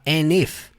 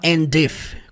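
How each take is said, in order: First: The D at the end of 'and' is barely heard. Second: The D at the end of 'and' is clearly pronounced. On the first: The speaker calls it right. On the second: The speaker calls it wrong.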